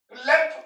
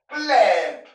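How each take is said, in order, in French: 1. La voyelle est prononcée courte. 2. La voyelle est prononcée longue. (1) "ce n'est pas plemp. Plemp, non" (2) "La voyelle est longue"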